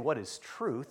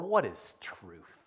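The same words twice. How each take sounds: First: It is asked as a sincere, genuine question. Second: It is asked in a mocking, insincere way. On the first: The asker really wants to know the answer. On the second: The asker does not really want an answer.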